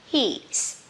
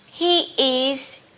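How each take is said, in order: First: It is said as one contracted syllable. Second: It is said as two separate full words.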